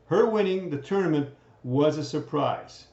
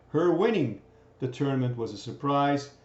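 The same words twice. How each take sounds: First: Her punched as the key word; stress on her. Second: Winning carries the weight, Her stays light; stress on winning. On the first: Teacher points out the possessive pronoun, stress on Her. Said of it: "This is the possessive form". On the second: Teacher points out the gerund, stress on winning. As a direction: hit winning to show the gerund. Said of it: "This is your gerund". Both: Shown as a demonstration.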